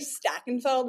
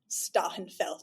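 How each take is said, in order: First: The name is said in a New Jersey accent. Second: The name is said with a guttural German sound. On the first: This is how the family usually says it. The speaker calls it wrong. "with a nice New Jersey accent" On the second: This is how the name is really meant to sound. The speaker calls it right. "I think it's really like"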